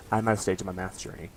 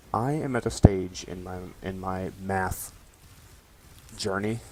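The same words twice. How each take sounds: First: Said in the usual way. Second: Drawn out slowly with a rising end; slow dramatic. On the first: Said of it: "I am at a stage in my math journey". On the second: Shown as a demonstration. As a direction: stretch it out like a big announcement.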